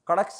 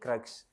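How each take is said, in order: First: An extra vowel splits the k and r sounds. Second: The k and r sounds form one tight cluster. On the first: The speaker calls it wrong. "कड़क्स नहीं" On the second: The speaker calls it right.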